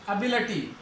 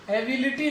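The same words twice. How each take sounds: First: एबिलिटी as uh-BIL-uh-tee; weak uh at start and before tee in एबिलिटी; English एबिलिटी ending in uh-tee; correct pronunciation. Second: एबिलिटी as ay-bi-li-tee; full ay first and short i before tee in एबिलिटी; spelling-style एबिलिटी ending in li-tee; wrong pronunciation. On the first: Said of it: "इसको अटी पढ़ना है". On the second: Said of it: "एबिलिटी नहीं". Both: Shown as a demonstration.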